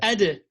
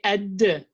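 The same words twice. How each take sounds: First: The final consonant is released lightly, without doubling. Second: The final consonant is released strongly, as if doubled. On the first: The speaker calls it right. "but you don't have shadda here. So you say" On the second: The speaker calls it wrong. "If you had shadda, you would say ad"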